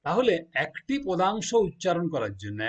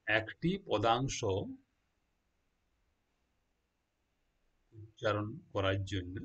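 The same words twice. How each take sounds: First: Said in the usual way. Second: "একটি পদাংশ" drawn out very slowly, each syllable separate; teacher slowing right down so students catch it; slow and deliberate. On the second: Shown as a demonstration. Teacher spelling out a phrase for students, slow and deliberate.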